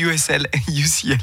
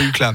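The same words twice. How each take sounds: First: Each letter of the acronym is spelled out. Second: The acronym is pronounced as a single word. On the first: The speaker calls it right. "Ça se dit UCLA" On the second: The speaker calls it wrong. "Pas UCLA"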